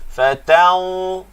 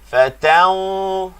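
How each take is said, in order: Both takes have the same delivery.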